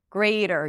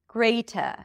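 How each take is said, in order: First: The T is a flap and the final R is pronounced. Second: The T is crisp and the final R is dropped. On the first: "in American English, you pronounce the R, you pronounce the T as a flap D" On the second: "British speakers do pronounce it as a T. ... they don't pronounce the R at the end"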